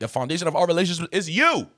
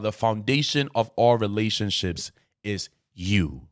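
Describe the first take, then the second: First: The final word is said loudly, almost screamed. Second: The final word is said at normal loudness.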